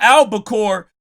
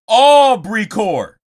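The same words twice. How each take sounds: First: "albacore" said as one word, with an L; "albacore" with a short first vowel; standard pronunciation. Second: "Aubrey core" with a long, loud AW-bree; "Aubrey core" as a drawn-out pun on albacore; punning pronunciation. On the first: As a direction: say "albacore" the ordinary way, like the tuna. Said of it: "It's not albacore". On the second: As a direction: stretch "Aubrey" slowly, then drop onto "core". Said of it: "it's Aubrey core". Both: Shown as a demonstration.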